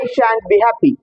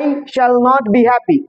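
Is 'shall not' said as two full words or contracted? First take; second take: contracted; full. First: The words are contracted into one syllable, 'shan't'. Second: The words 'shall not' are said in full. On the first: "shall not থেকে shan't হয়ে গেল" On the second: "shall not"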